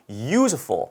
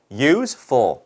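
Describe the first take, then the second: First: Said in the usual way. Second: Useful split slowly into use, ful; syllable by syllable. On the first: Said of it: "소리를 내봤더니 이래요". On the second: Shown as a demonstration. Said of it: "몇 음절?".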